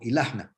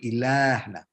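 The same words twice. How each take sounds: First: The A vowel is short. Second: The A vowel is long. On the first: This is the Judeo-Arabic form. "We have a shift from long A to short A" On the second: This is the standard Arabic form. "instead of ilahna in uh, standard Arabic"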